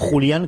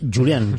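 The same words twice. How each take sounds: First: The name is pronounced the Spanish way. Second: The name is pronounced the English way. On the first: The speaker calls it wrong. "No Julian, que sería de Extremadura" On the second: The speaker calls it right. "es Julian"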